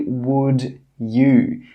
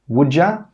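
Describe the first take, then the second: First: The second word is a full 'you'. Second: The second word is reduced to 'ya'. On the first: The speaker calls it wrong. "They don't say would you" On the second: The speaker calls it right. "Native speakers normally say"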